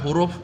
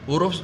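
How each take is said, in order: Both takes have the same delivery.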